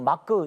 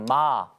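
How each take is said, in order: First: A k sound follows the vowel as an extra syllable. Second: The syllable ends on the bare vowel. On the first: The final consonant is kept as a separate syllable. "받침을 붙이면 마크 이렇게 발음을 해버리게 돼요" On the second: The final consonant is dropped. "받침을 빼버리고 마"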